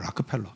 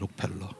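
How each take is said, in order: First: The name is said with an American-style pronunciation. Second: The name is said with a Korean-style pronunciation. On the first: This is how Americans say the name. "걔네들은 발음을 이상하게 해요. 락크펠러 그러더라" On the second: This is how Koreans say the name. "그렇지만 우리는 록펠러"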